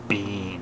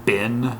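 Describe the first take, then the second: First: The vowel is long, as in 'bean'. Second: The vowel is short, as in 'bin'. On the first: It is the speaker's usual pronunciation. "this word ... is uh, bean. Like B E E N" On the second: It is how most Americans say it. "Most of them will pronounce that bin"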